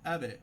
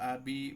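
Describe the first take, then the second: First: The b ends in a very quick, short echo. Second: The b is followed by a full i vowel. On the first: The speaker calls it right. "খুবই দ্রুততার সাথে" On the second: The speaker calls it wrong. "বাইরের নিচে জের চলে আসলো, তার মানে এটা বড় ভুল হয়ে গেল"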